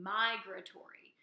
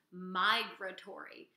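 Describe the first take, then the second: First: Migratory said slowly, every syllable clear; model pronunciation. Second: Said in the usual way. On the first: Shown as a demonstration. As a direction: sound out migratory for the class to repeat. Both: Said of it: "So you can try saying that at home".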